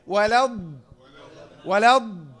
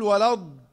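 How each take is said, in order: First: "ولا الض" with ض pressed, lips unrounded; firm model "ولا الض" without puffing; correct dad. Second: "ولا الض" with ض wrongly said through rounded lips; mock over-rounded "ولا الض"; lip-rounded dad. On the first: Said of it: "وما ضمتش الشفتين". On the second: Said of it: "لم اكل ولا الض". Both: Shown as a demonstration.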